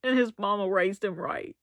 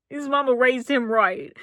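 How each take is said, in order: First: Said in the usual way. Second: "His mama raised him right" repeated with weight on "mama"; emphatic repeat. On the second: Real, not acted. Vlogger gushing over Dale's upbringing, stressing "mama". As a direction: lean on "mama", said a touch louder.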